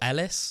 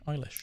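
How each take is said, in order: First: The name ends with an 's' sound. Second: The name ends with an 'sh' sound. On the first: The speaker calls it wrong. "a lot of people used to call it Ellis" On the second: The speaker calls it right. "but it's no, it's Eilish"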